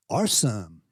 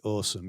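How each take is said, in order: First: Imitated San Diego "awesome"; San Diego accent. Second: Said in the usual way. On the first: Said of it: "do a San Diego accent". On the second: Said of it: "Everybody does say".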